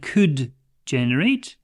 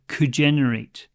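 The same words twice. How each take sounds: First: The D in 'could' is fully released. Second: The D in 'could' is nearly dropped. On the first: "rather than could generate" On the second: "we can say could generate"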